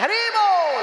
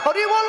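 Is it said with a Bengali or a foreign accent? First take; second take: foreign; Bengali. First: It is said mimicking a foreign accent. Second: It is said with a natural Bengali accent. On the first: Bengalis are mocking the foreigners' pronunciation. The speaker calls it wrong. "বাঙালিরা ওদের মতো করে ভেঙচি কাটে" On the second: A Bengali speaker should say it properly. The speaker calls it right. "তুমি তো ভাই বাংলা বলতে পারো"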